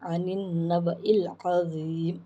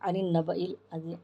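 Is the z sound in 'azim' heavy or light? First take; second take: heavy; light. First: The z sound in azim is heavy and full. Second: The z sound in azim is light and thin. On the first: The speaker calls it right. "इस ज़ात को जो है मोटे हरूफ में" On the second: The speaker calls it wrong. "ऐसा नहीं आना"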